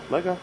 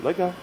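The two takes are said the same way.

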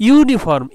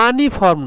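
First: ইউনিফর্ম starting clearly on "yu", said higher and louder; সঠিক উচ্চারণ: ইউনিফর্ম শুরুতে জোর দিয়ে "ইউ"; correct pronunciation demo. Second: আনিফর্ম said with a plain open "a" at the start; মোড়কের ভুল উচ্চারণ: আনিফর্ম শুরুতে "আ"; wrong pronunciation demo. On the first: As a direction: land hard on the opening "yu" of ইউনিফর্ম. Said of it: "ইউ এর মতো উচ্চারণ". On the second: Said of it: "এটাকে আনিফর্ম বলা হয় না". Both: Shown as a demonstration.

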